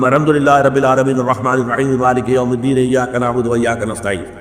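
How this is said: It is recited quickly in one single breath.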